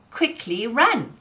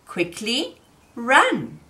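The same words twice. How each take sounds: First: Said in the usual way. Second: Quickly run, said slowly and deliberately; slow, drawn out. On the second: Shown as a demonstration. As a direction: stretch out quickly run, word by word. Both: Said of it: "we could say".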